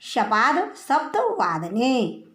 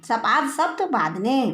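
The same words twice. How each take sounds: First: शपाद सप्त वादने spoken slowly, each word spaced apart; slow, careful recitation. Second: Said in the usual way. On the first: Shown as a demonstration. Teacher dictating the Sanskrit time phrase to students, slow and careful. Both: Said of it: "तो लिखेंगे उसको".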